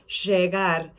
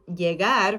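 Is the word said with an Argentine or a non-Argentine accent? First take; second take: Argentine; non-Argentine. First: It is said with an Argentine accent. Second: It is said without the Argentine accent.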